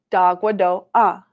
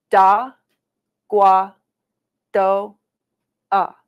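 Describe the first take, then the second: First: Whole word in one connected go; a little quicker. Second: Teacher's slow syllable-by-syllable model. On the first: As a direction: link "Da, gua, do, ah" smoothly with no gaps. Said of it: "say it a little bit quicker". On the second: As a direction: say "Da, gua, do, ah" piece by piece, pausing after each. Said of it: "We'll say it slow". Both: Shown as a demonstration.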